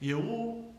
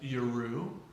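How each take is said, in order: First: No R sound is said between the vowels. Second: An R sound is said between the vowels. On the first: The speaker calls it right. "remove the resh" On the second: The speaker calls it wrong. "to avoid pronouncing it Yeru"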